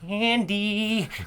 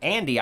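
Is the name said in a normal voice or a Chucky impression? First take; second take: Chucky impression; normal voice. First: It is said in Chucky's voice, with shifting pitch. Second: It is said in his normal voice.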